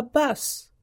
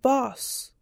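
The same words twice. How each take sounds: First: "bus" with a short American uh vowel; American pronunciation. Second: "boss", the rounded Irish-like vowel for bus; Irish-style vowel. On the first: Researcher shows how an American mother says the word, "bus" with uh. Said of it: "American English-speaking mother might call". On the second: Researcher shows an Irish father's word for bus, "boss" with rounded vowel. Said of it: "spoken by an Irish English-speaking father". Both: Shown as a demonstration.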